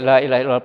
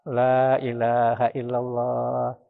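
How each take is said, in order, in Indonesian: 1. Diucapkan cepat, diulang tanpa jeda. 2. Diucapkan pelan, lalu ada jeda. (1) "Jangan kayak" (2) "Jangan terus-menerus dan jangan cepat-cepat. ... Berhenti dulu"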